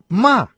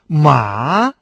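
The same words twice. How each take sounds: First: The pitch falls sharply from high. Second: The pitch dips low, then rises. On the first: It means to scold. "четвертый тон" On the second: It means horse. "третий тон"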